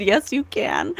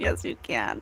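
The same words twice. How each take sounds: First: Tearful laugh through the words; giddy quote from the spirit. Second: Much lower and softer, almost a breath; soft low murmur of a spirit's answer; hushed spirit voice. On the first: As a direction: say it half laughing, half crying. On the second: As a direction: hush it like a voice from beyond. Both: Retold or imitated. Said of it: "Spirit said".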